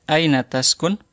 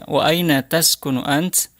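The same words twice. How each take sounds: First: "taskun" ending on a bare n, no vowel after; final vowel dropped. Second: "ant" closed on a bare t, no vowel after; final vowel dropped. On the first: Teacher showing the class to drop the final vowel of "taskun". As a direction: clip the last vowel off "taskun". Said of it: "huruf terakhir tidak usah dibaca harokatnya". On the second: Teacher repeating the question to show the silent last vowel. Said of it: "huruf terakhir tidak dibaca harokatnya". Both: Shown as a demonstration.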